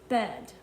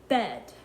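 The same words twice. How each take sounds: The two takes are said the same way.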